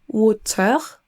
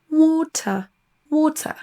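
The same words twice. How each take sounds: First: WATER with a French R sounded at the end; French-style water. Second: WATER with no R, ending on a schwa; higher British WATER, long first vowel, R dropped. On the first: Teacher showing learners what not to say, French-accented WATER. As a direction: say WATER as a French speaker would, R pronounced. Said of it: "On ne dira pas". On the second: Teacher modelling the British accent for learners, R-less WATER. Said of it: "On n'entend pas le R du tout". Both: Shown as a demonstration.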